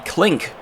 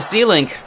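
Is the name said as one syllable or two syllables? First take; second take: one syllable; two syllables. First: The name is said as one syllable. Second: The name is said as two syllables.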